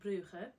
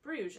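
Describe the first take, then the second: First: The name is pronounced with Dutch sounds. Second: The name is pronounced with French sounds. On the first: "the Dutch slash Flemish pronounce it" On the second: "the French pronounce it"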